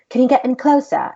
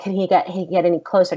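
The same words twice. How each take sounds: First: Louder, higher mock British voice; bad British accent. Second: Said in the usual way. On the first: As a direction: badly imitate a British director. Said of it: "very horrible job at a British accent". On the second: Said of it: "And he, he's British".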